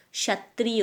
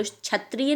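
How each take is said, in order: First: "क्षत्रिय" begun with sha, as shatriya; sha sound. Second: "क्षत्रिय" begun with chha, as chhatriya; wrong chha sound. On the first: Teacher correcting pupils, "क्षत्रिय" with sha. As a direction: open "क्षत्रिय" on a soft श. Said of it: "क्षत्रिय होता है श". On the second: Teacher showing the mistake, "क्षत्रिय" with chha. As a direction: swap the opening of "क्षत्रिय" for छ. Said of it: "क्षत्रिय नहीं होता". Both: Shown as a demonstration.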